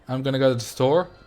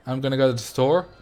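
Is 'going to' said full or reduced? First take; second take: reduced; reduced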